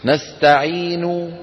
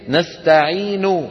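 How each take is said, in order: First: The word stops without a final vowel. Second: The word ends with a full final vowel. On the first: "الوقف بيسموه العلماء محل الاستراحة" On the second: "فالأصل هي الحركة الكاملة"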